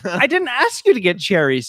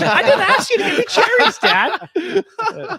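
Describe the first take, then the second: First: A hint of a put-out daughter, pitched a bit higher; lightly voiced daughter pushing back, not yet fed up; annoyed daughter. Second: Much higher, laughing exasperation; fed-up daughter cracking up as she protests; exasperated daughter. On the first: Daughter telling her dad she never asked for the cherries, mildly annoyed. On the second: Retold or imitated. Daughter insisting to dad she never wanted cherries, laughing exasperation. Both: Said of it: "She's like".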